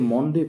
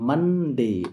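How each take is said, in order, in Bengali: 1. প্রথম স্বরধ্বনিটি একটি গোলাকার 'o' ধ্বনি। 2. প্রথম স্বরধ্বনিটি একটি খোলা 'uh' ধ্বনি। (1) "আমরা অনেকে মন্ডে পড়ি, কিন্তু মন্ডে নয়" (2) "এর সঠিক উচ্চারণ হবে মানডে"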